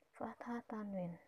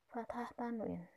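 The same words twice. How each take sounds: First: Whisper. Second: Said in the usual way. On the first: Shown as a demonstration. Teacher repeats term in whisper.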